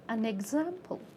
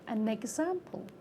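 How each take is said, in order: First: The final n links onto the next word. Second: The final n links onto the next word.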